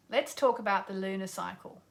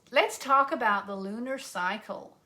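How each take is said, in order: First: Said in the usual way. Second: Lightly mocked American accent; put-on American accent. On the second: Host introduces lunar cycle to viewers, playful American accent. Repeats line in contrasting accents.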